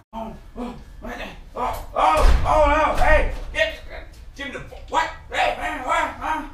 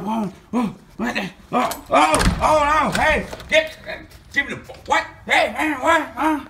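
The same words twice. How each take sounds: First: Starts hushed, then bursts into a high shout. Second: High, loud startled cries; panicked high yelp. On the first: Same panic repeated, quieter start. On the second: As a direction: panic as someone bursts in. Panicked character being confronted. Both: Acted.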